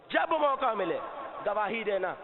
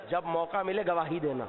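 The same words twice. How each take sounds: First: Emphatic repeat on جب; stress on جب. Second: Said in the usual way. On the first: Shown as a demonstration. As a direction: punch جب to urge seizing the moment. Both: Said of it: "repeated phrase, low then raised".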